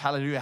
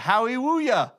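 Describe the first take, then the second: First: The word is said with clear L sounds. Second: The later L sounds are said as W.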